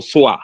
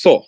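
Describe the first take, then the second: First: "soar" said in two syllables, like "soo-ah"; "soar" stretched into "soo-ah"; common mispronunciation. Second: "soar" as one syllable, like "saw"; "soar" with one long open "o"; correct pronunciation. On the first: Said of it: "Okay, it's pronounced soar". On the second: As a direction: say "soar" as a single "sore". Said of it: "it's pronounced soar". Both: Shown as a demonstration.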